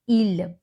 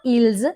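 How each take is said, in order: First: The word ends without any s sound. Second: The word ends with an audible s sound. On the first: The speaker calls it right. "S is silent. It's not ils, it is il" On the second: The speaker calls it wrong. "It's not ils"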